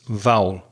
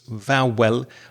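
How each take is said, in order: First: The word runs together almost as one syllable. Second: The word is split into two clear syllables. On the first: The speaker calls it right. "I would say it like this" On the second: The speaker calls it wrong. "like two clear syllables"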